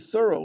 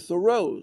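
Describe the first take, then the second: First: The stress falls on the first syllable. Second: The stress falls on the second syllable. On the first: This is how locals in the town say it. "we say thorough like furrow" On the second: This is how most people say it. "most people say Thoreau"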